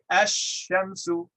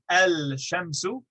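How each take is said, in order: First: The l merges into a doubled sh. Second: The l is pronounced before the sh. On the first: The speaker calls it right. "we say ash-shamsu" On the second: The speaker calls it wrong. "Instead of saying al-shamsu"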